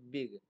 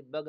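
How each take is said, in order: First: बिग with a short i; short-i vowel. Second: बग with an uh sound; wrong uh vowel. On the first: Teacher correcting the reading of big, बिग with short i. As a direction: say बिग with i, not uh. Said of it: "आई का तलफ़ुज़ ई से". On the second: Teacher showing learners a misreading, बग with uh. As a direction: say बग with uh instead of i. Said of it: "बग ना पढ़ते बल्कि बिग". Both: Shown as a demonstration.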